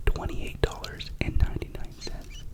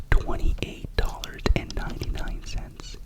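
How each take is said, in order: Both takes have the same delivery.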